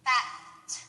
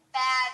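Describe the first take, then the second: First: Bat ending in a puff of air, no voice; voiceless t. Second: Bad with a voiced final d, louder; bad with throat buzz on the d. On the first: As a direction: Bat with no throat buzz on the t. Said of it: "no vibration at the end". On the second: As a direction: add voice to the d of bad. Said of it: "we add our voice". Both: Shown as a demonstration.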